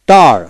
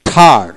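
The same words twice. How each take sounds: First: টার with an unaspirated hard T. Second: ঠার with a puff of air on the T; aspirated phonetic T. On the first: Teacher spells out T-A-R for learners, টার with hard T. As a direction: say টার with no puff on the T. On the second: Teacher shows phonetic T to learners, ঠার aspirated. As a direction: breathe out on the first sound of ঠার. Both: Shown as a demonstration. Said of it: "টি তে ঠ উচ্চারিত ফোনেটিক্সে".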